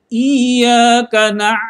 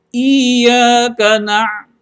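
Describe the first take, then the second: The two takes are said the same way.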